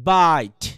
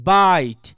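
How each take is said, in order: No difference in how they are said.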